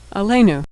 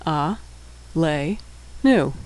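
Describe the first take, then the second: First: Said in the usual way. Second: Syllable by syllable. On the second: Shown as a demonstration. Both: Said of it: "and shurech".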